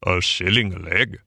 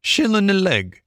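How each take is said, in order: First: Lower, rising indignant Toad; Toad crying out. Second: High, curt gypsy voice; gypsy making a curt offer, pitched high; brief gypsy. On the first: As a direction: echo the price in disbelief. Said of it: "cried Toad". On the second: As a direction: clip it short like a haggler. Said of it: "he said briefly". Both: A narrator's reading.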